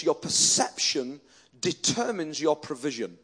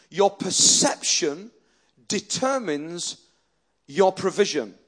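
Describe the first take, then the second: First: Said in the usual way. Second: "Your perception determines your provision" slow, in three separated pieces; emphatic repeat. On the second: Real, not acted. Preacher repeating point one, "Your perception" punched slow and strong.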